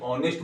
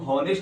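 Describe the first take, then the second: First: The word starts with a vowel sound. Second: The word starts with an h sound. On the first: The speaker calls it right. "बल्कि ऑनेस्ट बोलते हैं" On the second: The speaker calls it wrong. "इसको हम हॉनेस्ट नहीं बोलते हैं"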